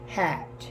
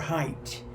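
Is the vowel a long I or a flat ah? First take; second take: flat ah; long I. First: The vowel is a flat ah. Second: The vowel is a gliding I.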